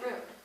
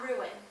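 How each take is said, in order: First: The word is said as one syllable. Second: The word is said as two syllables. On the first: The speaker calls it right. "I say rune, like one syllable" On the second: The speaker calls it wrong. "I think ruin is weird"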